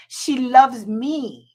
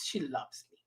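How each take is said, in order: First: Slow, stretched, a little louder; drawn-out. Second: Quiet, low murmur; soft aside. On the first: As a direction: savour every word, slowly. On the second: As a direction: drop the voice, just to yourself. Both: Real, not acted. Said twice, differently.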